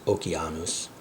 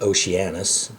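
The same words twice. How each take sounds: First: The C is said hard, like K. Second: The C is said soft, like S or SH. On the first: The speaker calls it right. "C is always hard like K, so it's Oceanus" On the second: The speaker calls it wrong. "Seems like you would pronounce that Oceanus"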